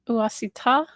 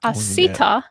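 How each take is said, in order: First: The stress falls on an unexpected syllable. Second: The stress falls on the expected syllable. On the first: The speaker calls it wrong. "I put the emphasis on the wrong syllable" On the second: The speaker calls it right.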